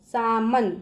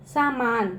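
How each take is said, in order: First: सामन said with a short a in the middle, saa-man; short vowel version. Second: सामान said with a long aa in the middle, saa-maan; correct long vowel. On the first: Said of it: "अब बच्चों मैं बोल दूँ". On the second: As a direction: stretch the second a in सामान. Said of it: "ठीक है, सामान". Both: Shown as a demonstration.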